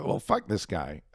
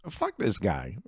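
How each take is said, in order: First: Slow, with this hit hard and falling; stress on this. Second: Said in the usual way. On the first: Real, not acted. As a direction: lean on the word this, slowly.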